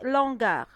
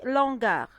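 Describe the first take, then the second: First: The article is elided onto the word. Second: The same.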